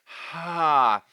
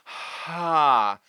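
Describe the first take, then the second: First: Air flows audibly before the vowel begins. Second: Air flows audibly before the vowel begins.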